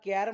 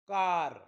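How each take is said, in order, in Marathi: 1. हा स्वर पुढचा 'ae' आवाज आहे. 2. हा स्वर मोकळा 'ah' आवाज आहे. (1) "याला कॅर म्हणणार का? ... नाही" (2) "ए नंतर जेव्हा आर येतो तेव्हा एचा उच्चार आ होतो"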